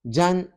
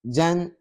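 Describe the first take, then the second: First: The syllable ends with an n sound. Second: The same.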